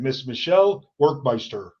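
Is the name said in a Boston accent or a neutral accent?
neutral. The name is said without a Boston accent. The speaker calls it right. "let me try again"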